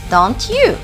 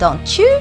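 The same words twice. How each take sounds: First: The t and y are said separately. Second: The t and y merge into ch.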